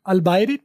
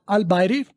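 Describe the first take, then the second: No difference in how they are said.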